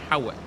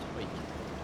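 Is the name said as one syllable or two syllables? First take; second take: two syllables; one syllable. First: The name is said with two syllables. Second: The name is said as one syllable. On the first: This is how the spelling suggests it is said. The speaker calls it wrong. "it's spelt like Howick" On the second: This is how the place name is actually said. The speaker calls it right. "But it's pronounced Hoik"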